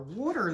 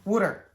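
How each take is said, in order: First: "Water" said as wah-ter with an open aw vowel; "Water" with an open aw, not the Philly wooder; usual water. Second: "Water." said as Philly wooder, loud and falling; Philly "Water." as wooder, with a rounded oo vowel; Philly accent. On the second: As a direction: punch out "Water." the Philadelphia way, like wooder. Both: Shown as a demonstration. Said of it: "That's my accent".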